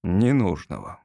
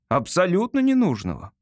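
First: Low, falling echo of the word; doubting echo. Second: «Абсолютно ненужного» pitched high and firm; emphatic insistence. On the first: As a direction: repeat «Ненужного» low, as the doubting father. Father echoes son in doubt. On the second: Son insists against father's doubt. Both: Acted.

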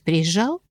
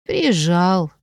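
First: ПРИЕЗЖАЛ said as a question, lifting at the end. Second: Drawn-out sighing answer, falling at the end; sighed. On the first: Friend asking whether the duke visited, questioning rise on "Приезжал". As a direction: ask "Приезжал" with a rising tune. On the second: Heroine admitting the duke came, sighed reply. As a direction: sigh the word out slowly, letting it sink. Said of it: "вздохнула я". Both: A narrator's reading.

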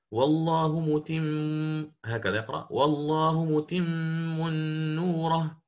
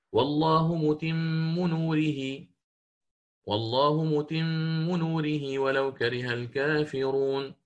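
First: Slow recitation with "نوره" said as "نورَهُ", with a damma on the ha; Shu'ba reading. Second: Slow chanted recitation, "نوره" ending in "نورهي"; slow Quran recitation. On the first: Teacher demonstrates Shu'ba's damma, slow chant. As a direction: chant "والله متم نوره" slowly, ending "نورهُ". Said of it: "وشعبة يقرأ". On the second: Teacher recites the verse in Hafs reading, slow chant. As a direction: recite slowly with melody, Hafs style. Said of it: "كقوله تعالى في سورة الصف". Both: Shown as a demonstration.

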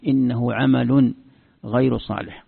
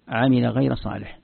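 First: "عمل" said 'amalun, "غير" said ghayru; slow recitation with "عمل" as 'amalun; verbal-noun reading. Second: "عمل" said 'amila, "غير" said ghayra; slow recitation with "عمل" as 'amila; past-verb reading. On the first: Teacher shows the noun reading, "عمل غير" as 'amalun ghayru. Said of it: "أو يكون مصدر". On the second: Teacher shows the verb reading, "عمل غير" as 'amila ghayra. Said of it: "هذا فعل ماضي". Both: Shown as a demonstration.

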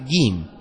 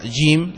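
First: جيم with a hard g, Egyptian style; جيم pronounced with a hard g. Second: جيم with a soft dj sound; جيم pronounced with a dj sound; soft j jim. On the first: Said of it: "ننطقها جيم". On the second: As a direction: say جيم with the dj of most Arabs. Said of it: "نحن لا ننطقها جيم". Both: Shown as a demonstration.

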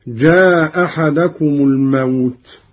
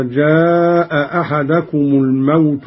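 First: جاء أحدكم with only one hamza, "jaa ahadakum"; first hamza dropped. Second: Said in the usual way. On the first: Shown as a demonstration. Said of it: "بإسقاط الهمزة الأولى". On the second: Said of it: "قرأ قالون بإسقاط الهمزة الأولى".

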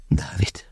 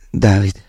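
First: Breathy, very soft sigh of the name Dávid; barely a breath, sighing the name out. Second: Said in the usual way. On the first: A narrator's reading. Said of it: "sóhajtotta". (sóhajtva, nagyon halkan) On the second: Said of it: "ismételte".

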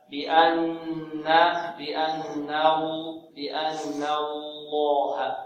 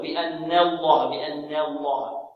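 First: Drawn-out بأن الله, light noon with a full open a; correct model recitation. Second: بأن الله with the noon's a bent toward e, "bi-anne-llaah"; slow mistaken بأن الله, "ne" in place of "na"; wrongly tilted fatha. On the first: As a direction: chant بأن الله very slowly, clear "na" then heavy lam. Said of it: "إذن هكذا". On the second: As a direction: say بأن الله wrongly, fronting the vowel after n to e. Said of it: "لا نقلل الفتحة النون". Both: Shown as a demonstration.

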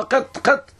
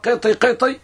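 First: "قط، قط" cut off at the ط, no final ee; رواية بدون ياء. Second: "قطي، قطي" each ending in a long ee; رواية بالياء. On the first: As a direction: drop the ya from both words in "قط، قط". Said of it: "لكن بدون ياء". (نطق "قط، قط" بدون ياء في آخرهما) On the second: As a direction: add a final ya to both words in "قطي، قطي". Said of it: "مع ياء أو بدون ياء". (نطق "قطي، قطي" بياء في آخر كل منهما) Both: Shown as a demonstration.

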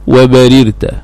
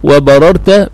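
First: وبررت as wa-ba-rir-ta; kasr on ra. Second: وبررت as wa-ba-rar-ta; fath on ra. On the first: Teacher quoting what Arabs say, وبررت said wa-barirta. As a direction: say وبررت with short i under the first ra. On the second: Teacher giving the second form, وبررت said wa-bararta. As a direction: say وبررت with short a on the first ra. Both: Shown as a demonstration. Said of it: "بالكسر والفتح".

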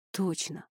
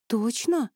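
First: Reassuring. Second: Doubting question, pitched higher; double-check, unconvinced; doubtful. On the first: Eli answers his doubting wife, reassuring. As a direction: confirm it quietly and firmly. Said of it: "заверил он". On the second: Wife questions her husband's recovery, doubtful. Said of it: "с сомнением переспросила она". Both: A narrator's reading.

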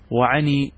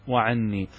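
First: "وعني" with a single short n; lightened noon. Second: "وعني" with a doubled, held n; original doubled noon. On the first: Teacher showing how some early Arabs spoke, "وعني" with single n. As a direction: keep the n of "وعني" light, undoubled. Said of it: "بالتخفيف". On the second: Teacher giving students the standard form, "وعني" with doubled n. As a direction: linger on the geminate n in "وعني". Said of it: "الأصل أن تأتي بالنون". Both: Shown as a demonstration.

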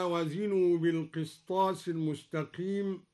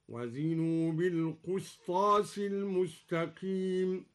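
First: Said in the usual way. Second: Slow chant, بالقسطاس read bilqustas; qaf with u in القسطاس. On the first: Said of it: "ضم الدوري القاف". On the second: Shown as a demonstration. Teacher chants al-Duri's reading, القسطاس as alqustas. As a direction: recite القسطاس with u after the qaf. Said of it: "ضم الدوري القاف هكذا".

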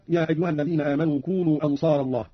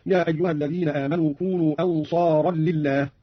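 First: Said in the usual way. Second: "أنصارا لله" said "ansaaran lillaah", n merging into l; tanween plus lam. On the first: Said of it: "قرأ قالون بتنوين الراء". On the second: Shown as a demonstration. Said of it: "بتنوين الراء وزيادة لام". (تنوين الراء ولام زائدة في "أنصارا لله")

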